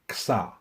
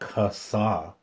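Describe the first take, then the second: First: The K and S run together without a vowel. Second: A vowel is heard between the K and S. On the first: The speaker calls it right. "you just really say it fast" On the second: The speaker calls it wrong. "It's not Kasa"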